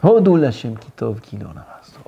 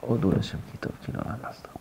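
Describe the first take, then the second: First: Said in the usual way. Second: Much softer murmured repeat of "Hodou Lashem Kitov Kilon Amasto". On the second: Shown as a demonstration. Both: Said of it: "Léat, léat".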